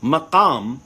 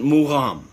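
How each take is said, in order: First: It is said the Arabic way. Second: It is said the Azerbaijani way. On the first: "the word in Arabic" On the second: "the Azerbaijanis they pronounce it mugham"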